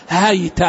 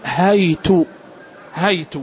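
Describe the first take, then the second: First: هيت said as haita, open h, still y, open t; هيت with fatha on the h and the t; Quranic reading haita. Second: هيت said as haitu, open h, t with damma; هيت as hay-tu, slow and deliberate; Quranic reading haitu. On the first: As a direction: read هيت as hay-ta with a short final a. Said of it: "بفتح الهاء وسكون الياء وفتح التاء". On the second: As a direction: read هيت ending in a short u. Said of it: "بفتح الهاء وضم التاء". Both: Shown as a demonstration.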